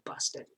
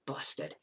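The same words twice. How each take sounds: First: Busted breathed out very softly, barely audible; mouthed Busted at a near whisper; barely voiced busted. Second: Under the breath. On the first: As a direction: say Busted almost silently, under your breath. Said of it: "she couldn't hear me". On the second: Retold or imitated. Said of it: "I didn't say it".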